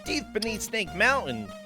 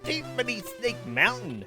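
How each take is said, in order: First: It sounds like an old prospector's voice. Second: It sounds like a menacing villain's voice.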